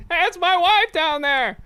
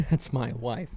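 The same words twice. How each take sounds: First: High, chipper everyman voice. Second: Said in the usual way. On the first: Pretend. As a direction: say it like a cheerful regular guy.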